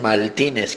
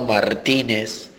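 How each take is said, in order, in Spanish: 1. La consonante antes de la t es L. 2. La consonante antes de la t es R.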